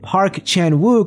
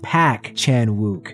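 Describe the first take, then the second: First: The surname is said with an R sound. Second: The surname is said without an R sound. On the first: The speaker calls it wrong. "The R in surname Park is silent" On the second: The speaker calls it right. "is pronounced Pak Chan-wook"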